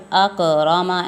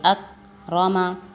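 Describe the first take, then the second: First: The k sound bounces with a small echo. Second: The k sound joins tightly onto the next sound. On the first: The speaker calls it wrong. "ऐसे नहीं करेंगे" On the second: The speaker calls it right. "चिपका कर अदा होगा"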